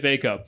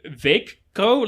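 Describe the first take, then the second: First: The k is short, with no held stop. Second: The k is held as a long stop. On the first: The speaker calls it wrong. "I can't just say Veikko, but anyway, I'm going to say" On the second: The speaker calls it right. "like you have to make a specific. like a stop"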